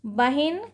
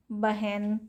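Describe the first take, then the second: First: बहिन said as "bahin"; i-form pronunciation. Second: बहन said as "bahen", no i; a-form pronunciation. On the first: Teacher contrasting forms for students, बहिन with an i. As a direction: clear short i after h in बहिन. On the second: Teacher contrasting forms for students, बहन without an i. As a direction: open the vowel after h in बहन. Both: Shown as a demonstration.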